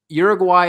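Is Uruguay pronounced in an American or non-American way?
American. The name is said with an American pronunciation. The speaker calls it wrong. "I hate that I pronounce it the American way"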